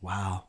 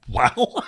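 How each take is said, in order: First: Imitating an impressed barber, low and soft; hushed admiring wow. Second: Retold wow at ordinary volume, taken aback; uneasy reaction. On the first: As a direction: murmur it low, as if entranced. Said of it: "he starts going like this". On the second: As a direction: echo it back, mildly thrown. His own uneasy reply, retold.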